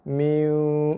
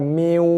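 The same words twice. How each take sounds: First: The merge into the w is soft and light. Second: The merge into the w is pressed hard. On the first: The speaker calls it right. "Kita masuk ke dalam waw dengan bacaan yang lembut, ringan aja" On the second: The speaker calls it wrong.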